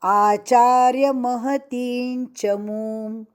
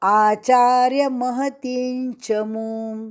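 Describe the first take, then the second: No difference in how they are said.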